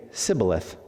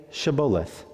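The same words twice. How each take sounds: First: Sibboleth begun with S in place of SH; failed attempt at Shibboleth, starting on plain S; mispronounced password. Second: SHIBBOLETH begun with a clear SH sound; correct password pronunciation. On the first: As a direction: say Sibboleth with a hissed S, missing the SH. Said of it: "could not pronounce it right". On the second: Acted. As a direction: say Shibboleth with a hushing SH at the start. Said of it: "then they would say to him".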